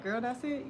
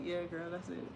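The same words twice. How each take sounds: First: Put-on rising, unimpressed "Girl, that's it?"; mock disbelief. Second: Said in the usual way. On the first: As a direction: ask "that's it?" like a let-down viewer. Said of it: "be like".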